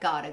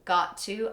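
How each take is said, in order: First: The words are blended into one reduced word. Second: Both words are pronounced fully and separately.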